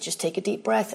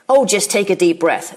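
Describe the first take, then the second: First: It is said in a caring, helpful tone. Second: It is said in a condescending, insulting tone.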